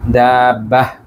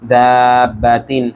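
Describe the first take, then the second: First: The word ends in an h sound. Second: The word ends in a -tin sound. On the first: The reader stops after this word. "এখানে তা কিন্তু হা হয়ে গেছে থামার কারণে" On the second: The reader continues into the next word. "যদি না থেমে পরের সাথে বলি তাহলে দাব্বাহ হবে না, দাব্বাতিন হাজুকা এভাবে হবে"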